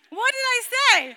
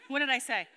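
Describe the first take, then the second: First: High, loud laughing question; amused laughing repeat. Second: Said in the usual way. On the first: Real, not acted. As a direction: ask it through a laugh.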